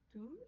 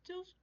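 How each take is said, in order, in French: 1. Le S final est muet. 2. Le S final se prononce. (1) "mais pas le S de l'adjectif" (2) "On prononce le S du pronom tous"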